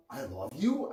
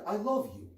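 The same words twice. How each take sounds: First: "I love you" rising on "you" like a question. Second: Said with kindness and tenderness; a sincere, loving statement; tender. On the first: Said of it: "as a question mark". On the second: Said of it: "when said with kindness and tenderness". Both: Shown as a demonstration.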